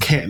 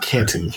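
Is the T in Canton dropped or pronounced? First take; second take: dropped; pronounced. First: The T in the middle is dropped. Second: The T in the middle is pronounced. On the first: This is how locals say it. The speaker calls it right. "we just don't say the T" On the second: This is how outsiders say it. The speaker calls it wrong. "not Canton"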